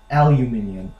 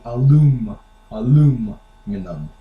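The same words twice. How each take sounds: First: Aluminium as AL-you-MIN-i-um; British-style aluminium; British pronunciation. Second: Aluminum with a long, heavy LUM; US-style aluminum, no extra i; American pronunciation. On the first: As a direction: say aluminium with a y glide and extra i. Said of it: "we don't say alu-, aluminium". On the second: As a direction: lean slowly on the LUM in aluminum. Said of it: "We say alum-, aluminum". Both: Shown as a demonstration.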